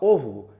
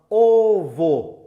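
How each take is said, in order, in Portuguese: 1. A vogal final soa como um u. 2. A vogal final soa como um o claro. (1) "Se falar rápido, vai falar ovo. ... O V U" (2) "a palavra ovo"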